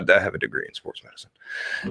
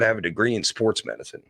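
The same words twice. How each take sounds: First: It is said hesitantly, with little confidence. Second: It is said firmly, with more confidence. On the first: The speaker calls it wrong. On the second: The speaker calls it right.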